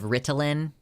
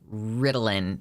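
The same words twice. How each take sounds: First: The T sound is clearly pronounced. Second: The T sound is dropped or softened. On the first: "instead of" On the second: "We just don't pronounce our T's very much where I'm from"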